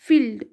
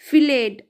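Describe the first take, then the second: First: The ending is blended into one syllable. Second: The ending is said as a separate syllable. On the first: The speaker calls it right. "ड का sound है पर एकदम मिला के बोलेंगे हम इसे" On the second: The speaker calls it wrong. "ऐसा नहीं आएगा"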